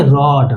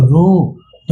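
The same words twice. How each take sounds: First: "रॉड" with a short open o; short-o pronunciation. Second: "रोड" drawn out slowly with a full ओ; long-o pronunciation. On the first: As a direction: say "रॉड" with the vowel as अ, not ओ. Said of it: "इसको क्या बोलेंगे". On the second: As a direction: stretch the ओ in "रोड". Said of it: "ओ का उच्चारण असली वाला आएगा". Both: Shown as a demonstration.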